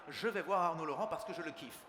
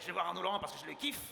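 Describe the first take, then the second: First: Every vowel is fully and carefully pronounced. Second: Small vowels are dropped, words run together. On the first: The speaker is a refined courtier. "une personne de la cour qui dira toutes les voyelles" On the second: The speaker is a rough country person. "j'imagine des paysans de l'époque"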